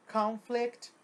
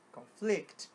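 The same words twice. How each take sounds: First: Conflict com força na primeira sílaba, CONflict; noun stress. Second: Conflict com força na segunda sílaba, conFLICT; verb stress. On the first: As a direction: ataque o início de Conflict. (Conflict, substantivo, tônica na primeira) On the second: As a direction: puxe a força para o fim de conflict. (conflict, verbo, tônica na última) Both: Shown as a demonstration. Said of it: "A mudança da sílaba tônica".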